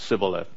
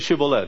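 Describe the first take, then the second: First: The word begins with an 's' sound. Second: The word begins with a 'sh' sound. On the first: The speaker belongs to the other side. The speaker calls it wrong. "He goes, Sibboleth" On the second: The speaker can say the sound of the right side. The speaker calls it right. "Say Shibboleth"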